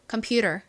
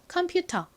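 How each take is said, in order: First: American style, with a flapped t and final r. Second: Korean-style syllables, with a clear t and no r. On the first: "미국식 해볼까요?" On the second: "한국식부터 해볼게요. 따라해 보세요"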